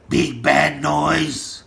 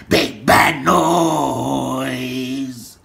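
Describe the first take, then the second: First: Slow, deliberate announcement; slow name-drop. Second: Very slow, last word stretched long; drawn-out name-drop. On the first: Man calling out big bad noise, slow. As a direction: say it slowly, each word separate. First take, then repeated stretched. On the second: Man calling out big bad noise, hugely drawn out. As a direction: drag "noise" right out. Same words repeated, drawn out. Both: Real, not acted.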